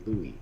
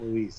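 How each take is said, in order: First: The name ends on a plain vowel sound. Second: The name ends with a buzzing z sound. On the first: The speaker calls it right. "It's Louis" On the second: The speaker calls it wrong. "it's not Louise. It's not a girl's name"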